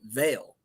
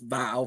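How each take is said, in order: First: The vowel sounds like the one in 'male'. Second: The vowel sounds like the one in 'mile'. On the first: It is how the owner says the name. The speaker calls it right. "but he pronounces it Vale" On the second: It is read from the spelling. The speaker calls it wrong. "if you look at it, it's Vile"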